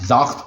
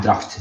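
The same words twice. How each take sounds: First: दरख्त said as "zakht", opening "dar" turned to "za"; child's mispronunciation. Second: Said in the usual way. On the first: Retold or imitated. Father shows his toddler's try at a hard word, imitated mispronunciation. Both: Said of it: "चूंकि मुश्किल है बोलना दरख्त".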